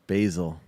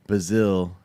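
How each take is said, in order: First: Said in the usual way. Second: "Basil" as "buh-ZILL", second syllable stressed; funny pronunciation. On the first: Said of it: "Did he say Brazil or basil". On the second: Retold or imitated. Streamer mimicking how the cook said it, funny "buh-ZILL" for "Basil". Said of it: "He said that funny".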